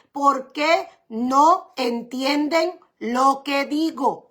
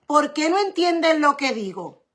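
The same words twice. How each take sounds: First: Very slow, drawing out each word; slow weighed question. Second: Said in the usual way. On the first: Shown as a demonstration. Preacher to congregation quoting Jesus, very slow. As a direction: ask it slowly, letting it sink in.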